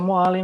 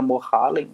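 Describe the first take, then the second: First: The h is silent. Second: The h is breathed out audibly. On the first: The speaker calls it right. "acaba que é só Moalen mesmo" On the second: The speaker calls it wrong. "todo mundo acha que é pronunciado aspirado"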